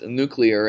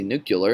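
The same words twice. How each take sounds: First: "nuclear" said NOO-klee-er; correct pronunciation. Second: "nuclear" said NOO-kyuh-ler; "nuclear" with a mistaken "kyuh-ler" ending; mispronunciation. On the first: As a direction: standard "klee-er" ending on "nuclear". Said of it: "Some people pronounced nuclear". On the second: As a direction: swap the sounds in "nuclear" to "nuke-yuh-ler". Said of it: "it's just pronounced incorrectly". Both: Shown as a demonstration.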